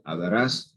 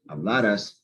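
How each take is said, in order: First: The stress is on the last syllable. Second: The stress is on the second-to-last syllable. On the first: It is the future tense. "that's future" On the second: It is the past subjunctive.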